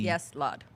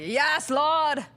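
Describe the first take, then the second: First: It is said flatly, with little energy. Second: It is said with lively, preacher-like energy.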